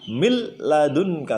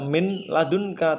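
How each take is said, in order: First: The n merges into a doubled l sound. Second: The n is pronounced separately before the l. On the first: The speaker calls it right. "diidghamkan secara langsung berubah menjadi mil ladunka" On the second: The speaker calls it wrong. "Bacanya tidak min ladunka"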